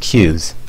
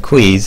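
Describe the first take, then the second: First: The word is said like 'cues'. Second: The word is said like 'quees'. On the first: The speaker calls it right. "the proper pronunciation is cues" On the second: The speaker calls it wrong. "some people call them quees"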